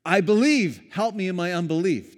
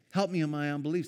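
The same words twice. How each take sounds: First: Pleading father. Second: Said in the usual way. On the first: Retold or imitated. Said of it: "the dad says".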